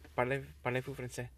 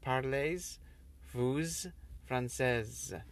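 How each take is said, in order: First: The final written consonants are left silent. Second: The final written consonants are pronounced aloud. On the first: The speaker calls it right. "But all those last" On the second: The speaker calls it wrong. "if you would literally say what is written"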